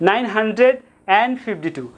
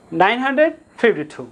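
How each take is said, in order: First: nine hundred অ্যান্ড fifty two with অ্যান্ড said as a light "an", no final d; অ্যান্ড softened to a quick unstressed "an"; soft "an". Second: Said in the usual way. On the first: Shown as a demonstration. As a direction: drop the d of অ্যান্ড and glide through "an". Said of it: "শুধু অ্যান উচ্চারণ করলে হবে". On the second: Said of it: "simply উচ্চারণ করব".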